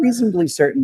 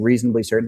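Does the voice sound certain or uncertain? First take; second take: uncertain; certain. First: The voice sounds hesitant and unsure. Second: The voice sounds firm and certain. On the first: The speaker is unsure this will work. The speaker calls it wrong. "the emotion is now uncertainty" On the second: The speaker is sure this will work. The speaker calls it right. "my tonality is certain"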